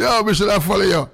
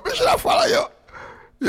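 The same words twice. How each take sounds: First: Said in the usual way. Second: High, slow laughing shout. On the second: Real, not acted.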